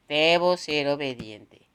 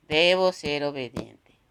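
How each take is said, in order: Both takes have the same delivery.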